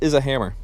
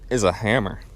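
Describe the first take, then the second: First: It is said in a friendly, polite tone. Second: It is said in a snotty, attitude-filled tone. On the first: The speaker sounds humorous and kind. The speaker calls it right. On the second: The speaker sounds condescending. The speaker calls it wrong.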